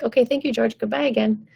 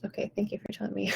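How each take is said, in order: First: Brisk dismissal. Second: Soft, fast whispered thank-you; whispered dismissal. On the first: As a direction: wave George off cheerfully. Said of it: "you're gonna be like". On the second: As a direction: whisper it to brush the voice off. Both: Acted.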